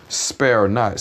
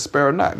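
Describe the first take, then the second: First: Said in the usual way. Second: "Spare not" thrown up high with weight on spare; "Spare not" repeated higher and stressed; emphatic scripture quote. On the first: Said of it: "See, it says, "Spare not". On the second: Shown as a demonstration. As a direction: lift the pitch and hit spare hard. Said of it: "See, it says".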